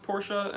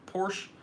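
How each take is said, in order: First: The word is said with two syllables. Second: The word is said with one syllable. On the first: The speaker calls it right. "Porsche is pronounced Porsche" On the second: The speaker calls it wrong. "and not Porsche"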